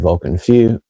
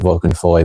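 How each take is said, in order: First: The second word sounds like 'few'. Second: The second word sounds like 'foy'. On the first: "it's pronounced properly Vulcan Few" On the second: "some people pronounce it Vulcan Foy"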